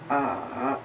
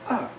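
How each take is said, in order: First: The pitch goes down and then up. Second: The pitch drops sharply from high. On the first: "a falling rising tone, where it goes down and then up" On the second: "a falling tone"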